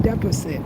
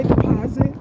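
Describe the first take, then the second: First: "Deposit" said as DEP-ruh-sit; local pronunciation. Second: "deposit" said as dih-POZ-it; speaker's home pronunciation. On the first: Has to say "Deposit" like they say it, local DEP-ruh-sit. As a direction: hit the first syllable of "Deposit", short e. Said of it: "say it like they say it". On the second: Explains the "deposit" locals don't understand, home pronunciation dih-POZ-it. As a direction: put the stress on POZ in "deposit". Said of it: "if you say deposit". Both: Shown as a demonstration.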